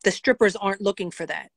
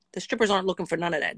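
First: Said in the usual way. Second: Rattled off quickly; quick insistent restatement; fast emphatic repeat. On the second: Shown as a demonstration. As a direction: hammer the point home fast.

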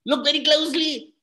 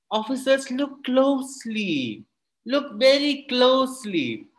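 First: "Look very closely" pitched well up, quick and urgent; high urgent Kalam. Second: "Look very closely" stretched slow and deliberate, pitched up; Kalam's own voice. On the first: Kalam urges the officers to look, high and quick. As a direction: snap it out high and fast, with no pause. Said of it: "And Abdul Kalam said". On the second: Kalam shows the officers the glass, slow and measured. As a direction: draw each word out slowly like a patient teacher. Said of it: "And in his own voice said". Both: Acted.

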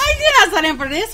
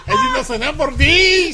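First: Fast echo. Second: Laughing repeat. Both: Real, not acted.

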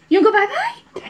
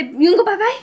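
First: Put-on high cooing baby talk. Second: Put-on high sing-song baby talk. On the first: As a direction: coo it high and bright. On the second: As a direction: coo it at the baby.

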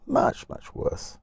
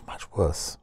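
First: "much, much worse" stretched slow and breathy, voice up high; whispered slow "much, much worse"; drawn-out "much, much worse". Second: Said in the usual way. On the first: Shown as a demonstration.

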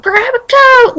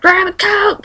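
First: Higher and louder repeat, hammed-up; mock urgent mom. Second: Urgent mom. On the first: Mom urging her daughter during a tornado, in a mock urgent shout. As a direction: push the repeat up like a panicking mom. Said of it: "like it was all serious". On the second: Retold or imitated. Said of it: "My mom was like".

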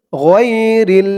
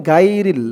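First: গইরিল drawn out with throaty "gh" and rounded "ghoy"; slow "ghoy-ril" from the throat; correct ghayn. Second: গাইরিল with hard g and open "gai"; plain "gai-ril", no throaty sound; common mispronunciation. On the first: Teacher giving the correction, গইরিল slow with throaty gh. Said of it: "শুদ্ধ হয় না, বলতে হবে". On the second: Teacher showing a common error, গাইরিল with light g. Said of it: "অনেকে বলে". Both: Shown as a demonstration.

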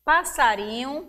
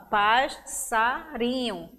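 First: Said in the usual way. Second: "passarinho" slowly as pas-sa-ri-nho; spaced beats on "passarinho", first S closing pas; syllable by syllable. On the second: Shown as a demonstration. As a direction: break "passarinho" between the two S's. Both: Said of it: "o S fica em sílabas diferentes".

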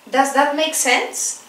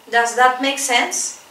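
Both takes have the same delivery.

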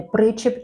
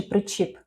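First: Причіп with the stress on the first syllable, ПРИ-чіп. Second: Причіп with the stress on the last syllable, при-ЧІП; stress on second syllable. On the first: Quiz host offers a choice of stresses, Причіп stressed on ПРИ. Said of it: "Перший склад наголошений". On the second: Quiz host offers a choice of stresses, причіп stressed on ЧІП. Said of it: "Який склад наголошений?". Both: Shown as a demonstration.

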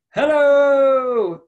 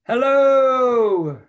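First: Even higher and louder, ringing back like an echo; be the echo from far away; a distant echo calling back hello. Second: High, loud call from a mountaintop; big hello shouted across the mountains. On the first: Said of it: "I heard a voice call back". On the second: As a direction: call out to the valley. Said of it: "and I shouted". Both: A narrator's reading.

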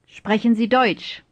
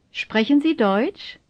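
First: Falling tune, voice dropping on "Deutsch"; firm falling end on "Deutsch"; statement intonation. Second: Rising tune, voice lifting on "Deutsch"; slightly drawn-out question rising on "Deutsch"; question intonation. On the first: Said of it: "first as statements". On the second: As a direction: ask it, rising at the end on "Deutsch". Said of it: "then as questions". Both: Shown as a demonstration.

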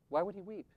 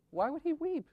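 First: Said in the usual way. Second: "Why would he weep?" lifted high, stress on "he"; high pleading question. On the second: Acted. Repeated rhetorical question.

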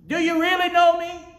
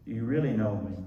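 First: High, shouted challenge; loud voice. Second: Said in the usual way. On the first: Acted. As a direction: cry it out to the church people. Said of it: "in a loud voice".

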